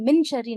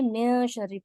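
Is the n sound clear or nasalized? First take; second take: clear; nasalized. First: The n is pronounced fully and clearly. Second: The n is hidden into a nasal sound. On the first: The speaker calls it wrong. "यहाँ पर हम मिन शर्री नहीं पढ़ रहे" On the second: The speaker calls it right. "नून साकिन की आवाज को छुपाकर पढ़ते हैं"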